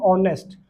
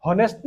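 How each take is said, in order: First: ऑनेस्ट with no h sound, opening straight on the vowel ऑ; silent h honest. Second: हॉनेस्ट with a clear h before the vowel; wrong sounded h. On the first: Teacher shows students the correct honest, silent h. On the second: Teacher warns students against pronouncing honest with h. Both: Shown as a demonstration. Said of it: "हॉनेस्ट नहीं बोलेंगे".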